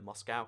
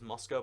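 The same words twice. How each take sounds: First: Moscow is said with an American pronunciation. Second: Moscow is said the standard, non-American way. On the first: The speaker calls it wrong. "I always want to call it Moscow because I guess Americans are awful" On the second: The speaker calls it right. "I know the pr- correct pronunciation is Moscow"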